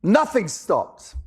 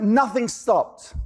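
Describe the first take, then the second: First: Slow, weighted "Nothing stopped"; slow emphasis. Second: Slow, deliberate "nothing stopped"; slow emphasis. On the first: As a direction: land each word heavily. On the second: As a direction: drop it down word by word. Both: Shown as a demonstration.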